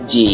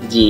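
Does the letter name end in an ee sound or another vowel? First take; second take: ee; ee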